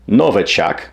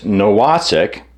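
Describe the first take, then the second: First: The middle consonant is a v sound. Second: The middle consonant is a w sound.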